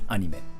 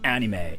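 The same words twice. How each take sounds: First: The final syllable is cut short. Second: The final syllable is drawn out. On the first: This is the Japanese way of saying it. "Like you just cut the sound like anime" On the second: This is the English way of saying it. "If you say like anime, it sounds so English"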